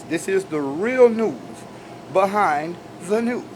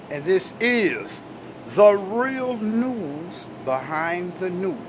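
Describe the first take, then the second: First: Plain but weighted tagline; emphatic. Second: Each word drawn out slow and weighty; slow emphatic announcer. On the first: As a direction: stress on real, said firmly. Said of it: "I'm saying that with emphasis". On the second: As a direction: announce it like a news anchor, slowly. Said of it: "I notice I'm saying that with emphasis". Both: Shown as a demonstration.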